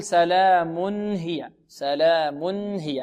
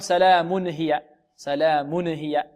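First: سلام هي with a plain, clear nun of the tanwin. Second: سلام هي with the tanwin nun bounced and moved; jerky tanwin, wrong. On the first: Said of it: "هكذا نطقها". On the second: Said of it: "نقلقل، نحرك التنوين". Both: Shown as a demonstration.

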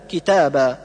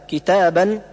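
First: كتابا said kitaba, the n dropped at the stop; pausal form. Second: كتابا said kitaban with final n; nunation pronounced. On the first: Teacher shows stopping on كتابا, final n dropped. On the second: Teacher shows كتابا in connected reading, kitaban with the n. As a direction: sound the tanween n at the end of كتابا. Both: Shown as a demonstration. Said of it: "ويوقف عليها بحذف النون".

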